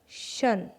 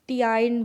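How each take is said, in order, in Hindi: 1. यह एक अक्षर में बोला जाता है, shun। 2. यह दो अक्षरों में बोला जाता है, tee-ine। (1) "इसे बोल रहे हैं शन" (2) "ना ही टियाइन बोला जा रहा है"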